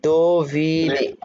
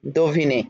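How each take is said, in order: First: "দোভিনে" very slowly, do... vi... ne; syllable ভেঙে. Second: Said in the usual way. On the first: Shown as a demonstration. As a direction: stretch each syllable of "দোভিনে". ("দোভিনে" ধীরে, টেনে টেনে) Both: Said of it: "syllable ভাঙতে জানেন".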